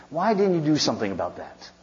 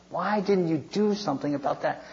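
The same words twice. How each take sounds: First: "why" highest, the rest descending; challenging question led by a strong "why"; stress on WHY. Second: Higher-pitched question, punching "do"; stress on DO. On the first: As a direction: hit "why" first, then let the question fall. First take of repeated challenge. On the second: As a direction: lean hard on "do" in the question. Repeats the question for emphasis. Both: Acted.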